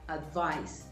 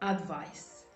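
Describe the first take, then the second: First: The stress is on the second syllable. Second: The stress is on the first syllable. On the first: The speaker calls it right. "but it is advice. The stress is on the second syllable" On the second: The speaker calls it wrong. "some people call this advice"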